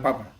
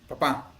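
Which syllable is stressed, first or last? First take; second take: first; last. First: The stress is on the first syllable. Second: The stress is on the last syllable. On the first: "en lugar de papa" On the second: "lleva la, la diéresis"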